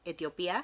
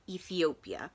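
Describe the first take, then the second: First: It is pronounced the Spanish way. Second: It is pronounced the English way. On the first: "I can only pronounce them in Spanish" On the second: "I believe it's pronounced in English"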